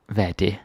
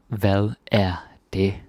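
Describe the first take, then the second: First: Said in the usual way. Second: "Hvad er det?" slowed down, words spaced; slow teaching repeat. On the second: Shown as a demonstration. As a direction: say it slowly for the class.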